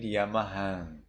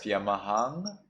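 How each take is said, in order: First: Yamahan, falling, final consonant barely closed; Burmese reading. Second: Yamahang with final nasal as written; Yamahang, rising, unchanged final consonant; standard reading. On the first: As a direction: let the end of Yamahan melt into a nasal vowel. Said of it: "you read Yamahan". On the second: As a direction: say Yamahang ending in a full, spelt-out nasal. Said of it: "instead of Yamahang". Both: Shown as a demonstration.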